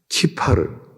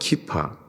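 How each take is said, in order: First: The word ends in an r sound. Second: The word ends in a vowel sound.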